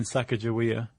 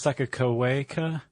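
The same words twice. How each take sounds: First: "Sacagawea" with g softened to a j; "Sacagawea" with a j sound in the middle; variant pronunciation. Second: "Sakakaweka" with k sounds throughout; "Sakakaweka" with a hard k and a "way" syllable; variant pronunciation. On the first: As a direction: say "Sacagawea" as SAK-a-ja-WEE-a. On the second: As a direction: say "Sakakaweka" as sak-a-ko-WAY-ka. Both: Shown as a demonstration. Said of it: "all pronounced it differently".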